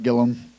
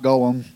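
First: The first vowel sounds like the one in hill. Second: The first vowel sounds like the one in hall. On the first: The speaker calls it right. "Gillum is how you pronounce it" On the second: The speaker calls it wrong. "not Gollum, not Lord of the Rings"

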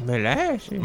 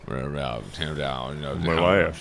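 First: It is said in a higher voice. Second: It is said in a lower voice.

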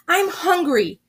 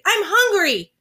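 First: It is said at normal loudness. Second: It is yelled very loudly.

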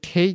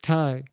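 First: The name rhymes with 'day'. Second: The name rhymes with 'tie'. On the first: The speaker calls it wrong. "He pronounces it Tay Conti" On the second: The speaker calls it right. "It's Ty"

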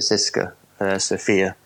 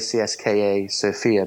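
First: CSKA is said as one word, Siska. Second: CSKA is said as separate letters. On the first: The speaker calls it right. "apparently you pronounce it Siska Sofia" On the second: The speaker calls it wrong. "I always say CSKA Sofia"

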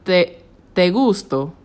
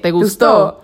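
First: The stress falls on the first syllable of gusto. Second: The stress falls on the last syllable of gustó.

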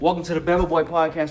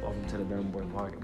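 First: It is said lively with more energy. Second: It is said flatly with little energy. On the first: The speaker calls it right. "with a little enthusiasm" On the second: The speaker calls it wrong. "it might have did the same thing"

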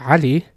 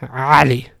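First: The opening throat sound is relaxed and voiceless. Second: The opening throat sound is tense and voiced. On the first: The name is said normally. "and you say Ali" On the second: Someone is shouting at the person. "if you really raise your voice, ... it becomes tense ... voicing of the consonant"

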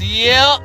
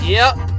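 First: It is said in an imitated, put-on voice. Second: It is said in the speaker's own voice.

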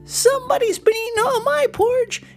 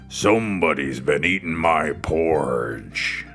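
First: It is squeaked in a tiny, high voice. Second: It is growled in a big, deep voice.

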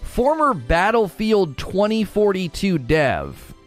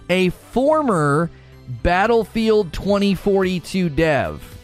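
First: The phrase is spoken at a normal pace. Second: The phrase is spoken very slowly.

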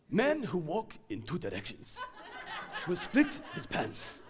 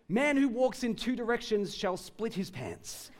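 First: It is said in an African accent. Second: It is said in the speaker's usual accent.

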